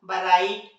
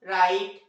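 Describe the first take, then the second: First: The word begins with a sound before the r. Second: The word begins directly with an r sound. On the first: The speaker calls it wrong. "जबकि पढ़ना क्या चाहिए था इस हिसाब से?" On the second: The speaker calls it right. "लेकिन इन्हें पढ़ा क्या जाता है?"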